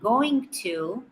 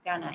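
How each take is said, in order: First: Both words are said fully and separately. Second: The words are squeezed into one short reduced word. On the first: "Instead of saying going to" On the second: "when we speak fast, going to becomes gonna"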